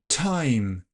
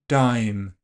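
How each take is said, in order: First: The first consonant has a puff of air. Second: The first consonant has no puff of air. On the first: "You should be able to hear that puff on the first version" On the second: "I didn't aspirate the second version"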